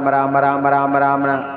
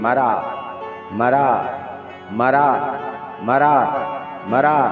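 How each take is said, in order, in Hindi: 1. शब्द तेज़ गति से दोहराया गया है। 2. शब्द धीमी गति से दोहराया गया है।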